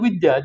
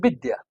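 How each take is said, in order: First: The word begins with a v sound. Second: The word begins with a b sound. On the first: "They have a va and they have a ba, but there's no vidya" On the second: "there's a bidya"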